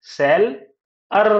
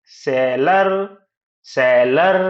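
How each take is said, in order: First: सेल, clear pause, then अर; split into syllables. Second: seller as one word, louder, rising at the end; joined syllables. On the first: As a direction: break seller into two firm beats. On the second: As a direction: blend सेल and अर without a pause. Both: Shown as a demonstration. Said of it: "seller कैसे बनता है?".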